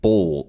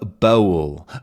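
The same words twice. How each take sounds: First: The vowel is dark and rounded before the L. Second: The vowel is lighter and not darkened by the L. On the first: "it kind of gets this very dark, rounded sound" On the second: "Bowl sounds very fancy and weird"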